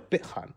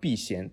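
First: The name is read with Cantonese pronunciation. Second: The name is read with Mandarin pronunciation.

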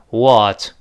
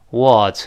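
No difference in how they are said.

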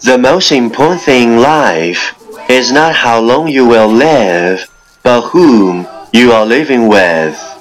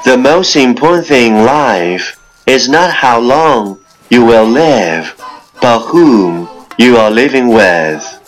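No difference in how they are said.

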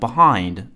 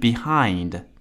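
First: The first syllable is reduced in quick speech. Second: The first syllable is fully pronounced. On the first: "念快的时候呢就会念成behind" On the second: "而不是behind"

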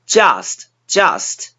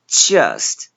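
First: The vowel is wide open like 'ah'. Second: The vowel is flatter with lips spread. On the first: The speaker calls it wrong. "嘴巴张过大变成了啊" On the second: The speaker calls it right. "稍微扁平的的音，嘴巴拉平发"

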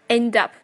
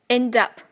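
The two takes are said the same way.

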